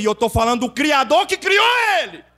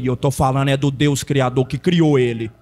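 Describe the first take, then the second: First: Tom agudo que sobe até o brado; proclamação gritada. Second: Tom bem grave, firme; resposta grave e contida. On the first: Mesma resposta, repetida aos gritos. (brado crescente de pregador) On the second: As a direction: responda sem gritar, lá no grave. Resposta encenada, primeira vez, contida. (resposta firme em voz grave) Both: Retold or imitated.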